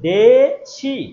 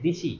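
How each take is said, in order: First: The first vowel is e, the second i. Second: Both vowels are i, said in one run. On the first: This is the standard form. "এই যেখানে দে একার বলতে হচ্ছে, আবার ইকার বলতে হচ্ছে দেশি" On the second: This is the easier regional form. "দিশি যদি আপনি বলেন তাহলে এক নাগাড়ে হয়ে যাচ্ছে দিশি"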